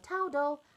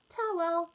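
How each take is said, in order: First: A d sound is inserted before the final l. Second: No d sound is heard before the final l. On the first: A small child is still learning the word. The speaker calls it wrong. "he calls towels towdles" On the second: The word is modelled correctly for the child. The speaker calls it right. "yeah, towel"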